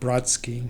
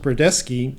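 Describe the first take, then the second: First: The name has two syllables, with no middle vowel. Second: The name has three syllables, with a middle vowel. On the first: The speaker calls it wrong. "not Brodsky" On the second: The speaker calls it right. "it's pronounced Brodesky"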